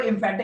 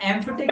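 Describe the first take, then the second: First: The word begins with an 'ih' vowel. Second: The word begins with an 'eh' vowel. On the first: The speaker calls it wrong. "इम्फेटिक नहीं होता" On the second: The speaker calls it right. "बेटा एम्फेटिक होता है वो"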